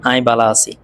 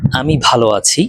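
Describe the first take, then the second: First: আই বালা আছি in Chittagonian, বালা with unaspirated b; চাটগাঁইয়া উচ্চারণে; Chittagonian dialect. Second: Said in the usual way. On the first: Shown as a demonstration. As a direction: say it the Chittagong way, "ai bala si". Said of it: "এটার চট্টগ্রামের version হলো". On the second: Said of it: "যেমন আপনি যদি বলেন".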